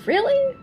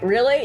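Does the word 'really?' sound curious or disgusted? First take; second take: curious; disgusted. First: It is asked with genuine, curious interest. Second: It is asked with a disgusted, dismissive sneer. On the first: The speaker sincerely wants to know more. The speaker calls it right. "really curious intonation" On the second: The speaker finds the idea distasteful. The speaker calls it wrong. "I'm not saying that like, really? Ew"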